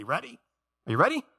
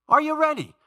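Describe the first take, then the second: First: Raised, higher-pitched check on the crowd; rallying question. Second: High, loud shout to the congregation; loud rallying call. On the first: Preacher asking church to memorize a verse, rallying question. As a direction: ask brightly, pitched up for an answer. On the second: Preacher rousing church to memorize a verse, loud rallying call. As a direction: call it out much higher to rouse them. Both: Real, not acted.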